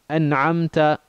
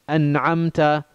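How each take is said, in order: The two takes are said the same way.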